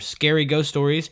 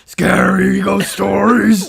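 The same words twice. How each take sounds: First: It is said in his normal voice. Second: It is said in a gruff Cookie Monster voice.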